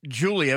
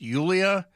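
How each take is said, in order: First: The name begins with a J sound. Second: The name begins with a Y sound. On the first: The speaker calls it wrong. "Not Julia, if you want to mispronounce it" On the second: The speaker calls it right. "he's told one last time it's Yulia"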